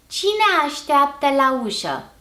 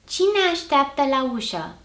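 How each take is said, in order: First: The meeting vowels are said separately. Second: The meeting vowels merge into one syllable. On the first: It suits formal speech. "the uncontracted form first" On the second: It suits informal speech. "then the contracted form"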